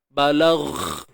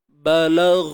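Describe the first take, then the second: First: The final gh slips into a voiceless kh. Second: The final consonant stays a clean voiced gh. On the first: The speaker calls it wrong. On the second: The speaker calls it right.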